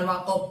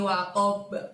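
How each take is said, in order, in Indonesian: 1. Huruf b terakhir berhenti datar tanpa memantul. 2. Huruf b terakhir memantul dengan lepasan singkat seperti bunyi a. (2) "Seperti ba di fathah ya cara mantulnya"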